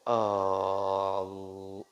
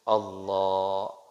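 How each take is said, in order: First: The first vowel, the opening A, is held long. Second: The second vowel, in la, is held long. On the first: It turns into a question doubting that God is greatest. The speaker calls it wrong. "batal solat" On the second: God is the greatest. The speaker calls it right. "itu benar"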